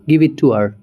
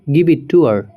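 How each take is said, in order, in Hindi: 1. 'Her' छोटा होकर एक छोटी 'er' आवाज़ बन जाता है। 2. 'Her' छोटा होकर एक छोटी 'er' आवाज़ बन जाता है।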